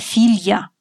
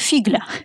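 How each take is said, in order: First: The gl sounds as a single soft l. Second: A hard g is heard before the l. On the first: The speaker calls it right. "дочка – это филья" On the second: The speaker calls it wrong. "А то я слышала версию фигля"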